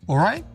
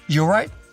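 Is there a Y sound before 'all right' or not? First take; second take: no; yes. First: It starts with no Y sound. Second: It starts with a short Y sound.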